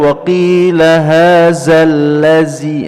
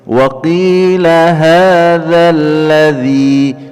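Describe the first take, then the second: First: The 'dh' sound hisses with escaping air. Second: The 'dh' sound is smooth with no hissing air. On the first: The speaker calls it wrong. "tidak boleh dibaca" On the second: The speaker calls it right. "tidak keluar udara atau ber, berdesis"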